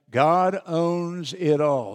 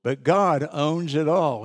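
First: Slow, weighty, every word of "God owns it all" leaned on, "God" highest; strong emphasis. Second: Said in the usual way. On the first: Shown as a demonstration. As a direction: deliver "God owns it all" slowly as the key truth. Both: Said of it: "I put a strong emphasis on that".

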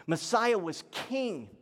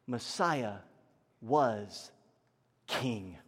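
First: Said in the usual way. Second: Low, word-by-word statement with long pauses; solemn emphasis. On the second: Real, not acted. Preacher defines Messiah for church, slow and solemn. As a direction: set down MESSIAH, WAS, KING separately, sinking lower. Key point said slowly, then restated.

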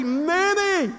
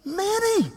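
First: "Many" called out high and drawn; excited "many". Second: "Many" sung out much higher; more excited "many". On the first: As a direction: rufe "Many" hoch und gedehnt. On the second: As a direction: push "Many" up high with a falling end. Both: Shown as a demonstration. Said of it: "I thought you'd get more excited about that word".

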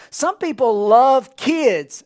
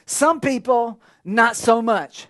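First: Love pressed slow and louder; sermon contrast, love stressed slow. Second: Some hit, then not so much dropped; sermon contrast, Some stressed dryly. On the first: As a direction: lean hard on love in Some people love kids. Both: Shown as a demonstration.

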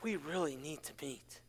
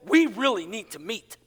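First: Very low, hushed and grave; ominous second reading. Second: Lower, lilting read with a rise at the end; first reading of text. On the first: Pastor showing how a text could sound angry, low and hushed. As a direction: drop it far down to a near murmur. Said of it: "Or you could read it as". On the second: Pastor showing one way to read a text, lilting. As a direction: read it aloud, ending on a lift. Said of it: "you could read that as". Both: Shown as a demonstration.

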